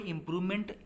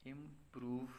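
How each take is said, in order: First: Said in the usual way. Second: improvement in quiet, separated chunks; pauses between word parts. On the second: Shown as a demonstration. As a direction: softly spell out improvement part by part, long gap before meant. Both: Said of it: "वहाँ pause का आना बिल्कुल आवश्यक है".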